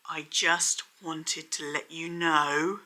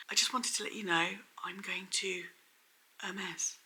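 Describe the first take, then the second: First: Bad acting. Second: Whispered, heavy with hidden meaning; bad acting. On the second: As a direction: whisper it like a secret hint. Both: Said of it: "she basically delivered it like this".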